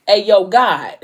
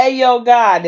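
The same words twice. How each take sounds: First: Breaking into a laugh mid-line; can't keep it together, laughing. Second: A louder, firmer retake; retold louder. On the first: Retold or imitated. Vlogger retelling Hendrix's prayer, laughing through it. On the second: Hendrix opening his prayer to God, louder retake. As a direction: say it again, louder and straight.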